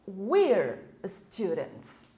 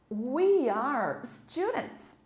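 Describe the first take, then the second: First: "We are" is joined into one short syllable. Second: "We are" is said as two full words.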